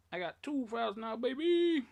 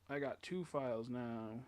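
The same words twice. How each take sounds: First: Higher, louder triumphant boast; excited brag. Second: Said in the usual way. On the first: Real, not acted. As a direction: crow it like a win. Bragging about two save files.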